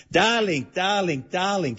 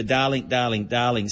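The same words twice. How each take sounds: First: Higher-pitched Hungarian "darling", each one falling; Hungarian accent. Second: Zsa Zsa Gabor. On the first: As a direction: imitate a famous star's Hungarian-accented endearment. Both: Retold or imitated. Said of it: "in her famous Hungarian accent".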